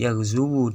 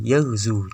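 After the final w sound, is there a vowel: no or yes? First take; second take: yes; no. First: The final w is followed by a short u vowel. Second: The final w carries no following vowel. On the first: This is the original underlying form. "dengan wawu yang didhammah" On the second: This is the form actually used after the rule applies. "dengan wawu yang disukun"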